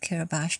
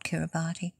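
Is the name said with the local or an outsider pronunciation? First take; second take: local; outsider. First: The name is said with its local pronunciation. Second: The name is said with an outsider pronunciation. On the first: "I'm using the local pronunciation of Kiribati" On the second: "not Kiribati"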